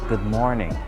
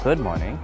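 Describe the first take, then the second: First: The stress falls on the word 'morning'. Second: The stress falls on the word 'good'. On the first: The speaker calls it right. "You raise your voice in more, this syllable, the second word" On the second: The speaker calls it wrong. "it's not good morning"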